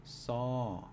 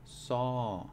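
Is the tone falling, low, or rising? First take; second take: falling; falling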